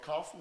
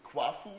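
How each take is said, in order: First: The name begins with a plain 'ka' sound. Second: The name begins with a 'kwa' sound. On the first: The speaker calls it wrong. "it's not Kafu" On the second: The speaker calls it right. "it's Kwafu we like to uh, pronounce it"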